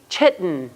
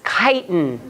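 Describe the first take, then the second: First: The word begins with a 'ch' sound. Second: The word begins with a 'k' sound. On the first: The speaker calls it wrong. "this is the k sound, not the ch sound. Please do not say chitten" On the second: The speaker calls it right. "This is chitin"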